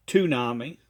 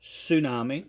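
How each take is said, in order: First: "tsunami" as too-NAH-mee; wrong pronunciation. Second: "tsunami" as soo-NAH-mee; correct pronunciation. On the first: Retold or imitated. Critic mocks the prophet's word, "tsunami" with a t sound. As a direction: open "tsunami" on a hard t. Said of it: "or should we pronounce it correct". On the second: Shown as a demonstration. Critic offers the proper form, "tsunami" with an s sound. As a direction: open "tsunami" on an s, rising slightly. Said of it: "correctly as".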